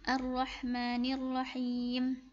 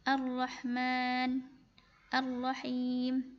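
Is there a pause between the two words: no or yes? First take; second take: no; yes. First: The two words are joined without a pause. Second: There is a pause after the first word. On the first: The words are read as one connected phrase. "Ustazah gabung semua cara bacanya" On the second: The reading stops after the first word. "Kalau misalkan Ustazah wakafkan di kata Ar-Rahman"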